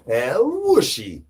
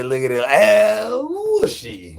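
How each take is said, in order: First: Said in the usual way. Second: High, slow, squeaky catchphrase; high squeal. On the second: Pretend. Streamer to chat, high slow put-on squeal. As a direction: stretch it high and slow like a cartoon.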